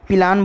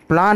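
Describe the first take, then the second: First: A short vowel separates p and l. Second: The p and l are joined directly. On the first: The speaker calls it wrong. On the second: The speaker calls it right.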